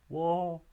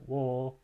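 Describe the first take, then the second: First: The word is said on a high pitch. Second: The word is said on a low pitch. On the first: The action happened in the past. "the high tone in this language indicates" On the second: The action will happen in the future. "each of those high tones into low tones"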